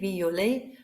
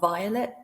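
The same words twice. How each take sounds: First: It is pronounced with French vowels. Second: It is pronounced with English vowels. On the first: The speaker calls it right. "Some of the vowels are different as well" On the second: The speaker calls it wrong. "not violet, as in English"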